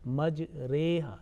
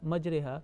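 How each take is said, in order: First: The vowel after the r is drawn out. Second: The vowel after the r is kept short. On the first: The speaker calls it right. "is a elonged one, okay, a little bit longer" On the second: The speaker calls it wrong. "not majreha"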